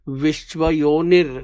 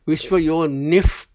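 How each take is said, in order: First: The word ends with an r sound. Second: The word ends with an f sound. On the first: The speaker calls it wrong. "it's not yon yonir" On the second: The speaker calls it right. "The F sound comes in between"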